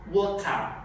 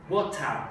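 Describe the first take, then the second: Both takes have the same delivery.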